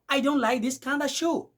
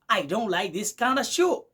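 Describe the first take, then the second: First: 'Kind of' is blended into 'kinda'. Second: 'Kind of' is blended into 'kinda'.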